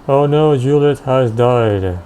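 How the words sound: It sounds amused, said with a smile.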